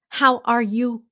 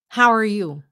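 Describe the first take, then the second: First: Each word is said separately with breaks between. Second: The words are linked smoothly without any breaks. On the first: The speaker calls it wrong. "nói từng từng câu, từng từng từ, từng chữ đó" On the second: The speaker calls it right. "Push it all together"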